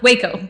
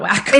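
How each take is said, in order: First: The first syllable rhymes with 'day'. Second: The first syllable rhymes with 'back'. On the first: The speaker calls it right. "Waco, not Wacko" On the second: The speaker calls it wrong. "not Wacko"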